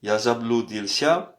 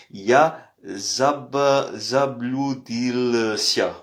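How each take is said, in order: First: Said in the usual way. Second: Slow, syllable by syllable; slow demo. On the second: Shown as a demonstration. Teacher to French learners, slowly sounding out заблудился. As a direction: spell out заблудился slowly for students. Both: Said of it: "Voilà, vous avez la prononciation".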